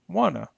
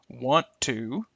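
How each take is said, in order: First: The words blend into one short reduced form. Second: Both words are said fully and separately. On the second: "the original forms"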